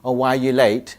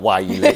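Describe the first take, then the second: First: It is said in a gentle, supportive tone. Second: It is said in a harsh, accusing tone.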